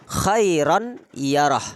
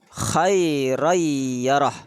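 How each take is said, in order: First: The n is pronounced clearly before the y. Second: The n merges into a doubled y sound. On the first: This is the original form of the words. "asal katanya" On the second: This is how the words are recited. "cara membacanya"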